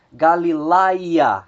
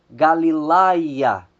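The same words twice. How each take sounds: First: Said in the usual way. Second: "Galilaia" slowly, stress on the "la" before "ia"; slow Greek diphthong demo. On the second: Shown as a demonstration. Teacher slowly modelling the Greek diphthong for students. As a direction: draw out "Galilaia" syllable by syllable. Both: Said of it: "o acento é sempre colocado sobre a segunda vogal".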